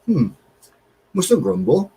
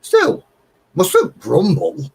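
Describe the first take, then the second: First: Lightly imitated resigned sigh of a line; a hint of weary old man; retold mild grumble. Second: High, slow, sing-song grumble line; drawn out like a weary old neighbour; mock resigned catchphrase. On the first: Retelling Kev's grumble while opening parcel, mildly mocking. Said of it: "And he said". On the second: Telling viewers the catchphrase, in a slow mock-weary drawl. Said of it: "You've got to say in your video".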